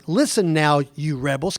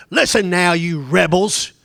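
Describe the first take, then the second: First: Said in the usual way. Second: Angry rebuke. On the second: Acted. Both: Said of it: "Can you imagine Moses saying to them".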